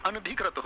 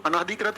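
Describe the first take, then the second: First: अनधिकृत said as "an-dhikrit"; no long aa after न in अनधिकृत; correct short vowel. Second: अनाधिकृत said with "naa" in the middle; wrong long vowel. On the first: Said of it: "क्या होगा?". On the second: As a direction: stretch the second syllable of अनाधिकृत to a long aa. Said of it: "कभी नहीं होता". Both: Shown as a demonstration.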